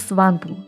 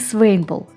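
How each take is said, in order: First: The name begins 'swan' and has two syllables. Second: The name begins 'swain' and has two syllables. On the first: "не Сванпул" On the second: "не Свейнпул"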